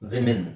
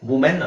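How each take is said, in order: First: The first vowel sounds like 'i'. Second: The first vowel sounds like 'oo'. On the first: The speaker calls it right. "ಇದೊಂದೇ ಪದದಲ್ಲಿ ನಿಮಗೆ ಇ ಬರುತ್ತೆ" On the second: The speaker calls it wrong. "ವುಮೆನ್ ಅಲ್ಲ"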